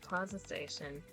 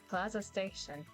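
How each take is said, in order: First: It is said in an ordinary reading voice. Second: It is said in a put-on announcer voice.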